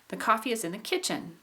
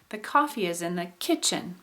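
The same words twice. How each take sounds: First: Only kitchen carries the main pitch emphasis. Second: Coffee and kitchen both carry pitch emphasis. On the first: "I'll try to say it a little bit more neutral" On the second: "I think I'm putting a little tone on coffee as well"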